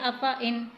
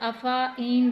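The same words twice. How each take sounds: First: The vowel is short, not drawn out. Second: The vowel is drawn out and held long. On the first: The written sign is present, so the letter is not lengthened. "जब गोल दायरा आ जाएगा हुरूफ मद्दा के ऊपर तो हम उसे पढ़ेंगे अफ़ाइन" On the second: The written sign is absent, so the letter is lengthened. "अगर दायरे को हटा दिया जाए तो यहाँ पर अफ़ाइन बनता है"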